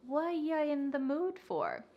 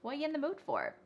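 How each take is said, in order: First: The phrase is said slowly and carefully. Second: The phrase is said very quickly. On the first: "we can say it like that to practice for this lesson" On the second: "say this with me really fast"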